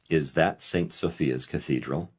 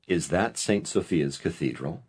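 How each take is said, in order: No difference in how they are said.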